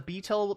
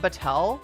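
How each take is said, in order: First: It is pronounced just like the word beetle. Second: It is not pronounced like the word beetle. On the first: The speaker calls it right. "It's actually pronounced like beetle" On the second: The speaker calls it wrong. "It's not Batel. I thought I was being smart by pronouncing it that way"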